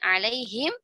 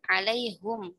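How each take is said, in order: First: The word ends with the syllable him. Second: The word ends with the syllable hum.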